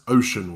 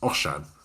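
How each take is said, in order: First: The name is said like the English word. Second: The name is said with Welsh pronunciation. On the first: The speaker calls it wrong. "incorrectly, though, you described him as" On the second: The speaker calls it right. "the correct Welsh pronunciation is"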